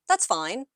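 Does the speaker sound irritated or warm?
warm. It is said in a warm, friendly tone. "it can feel warm"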